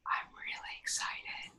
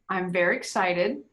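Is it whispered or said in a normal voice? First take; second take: whispered; normal. First: It is whispered. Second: It is said in a normal voice.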